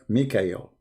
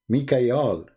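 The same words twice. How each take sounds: First: The last syllable is pronounced 'el'. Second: The last syllable is pronounced 'al'. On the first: This is the later changed form of the name. The speaker calls it wrong. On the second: This is the ancient form of the name. The speaker calls it right.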